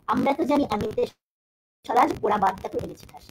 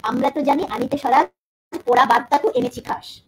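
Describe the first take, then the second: First: Said in the usual way. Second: Poetry recital. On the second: Shown as a demonstration. Teacher reciting Nazrul's couplet to the class, loud and declaimed. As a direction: recite the verse out loud, stressing জানি and এনেছি. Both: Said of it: "line দিচ্ছি".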